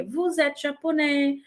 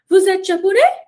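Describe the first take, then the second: First: "vous êtes japonais" as an unhurried plain statement; calm statement intonation. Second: "Vous êtes japonais" high and loud, soaring up on japonais; exaggerated question intonation. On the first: Teacher showing a normal simple sentence, calm statement intonation. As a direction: keep "vous êtes japonais" easy, with no questioning lift. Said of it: "uma coisa tranquila". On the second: Teacher exaggerating so learners hear the rise, exaggerated question intonation. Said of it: "claro que eu tô exagerando". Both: Shown as a demonstration.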